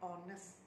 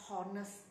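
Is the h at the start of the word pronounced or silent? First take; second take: silent; pronounced. First: The word begins with a vowel, h silent. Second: The word begins with a pronounced h sound. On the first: The speaker calls it right. "Sebenarnya dia sepatutnya mereka cakap honest" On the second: The speaker calls it wrong. "Saya pernah mendengar orang yang bercakap honest"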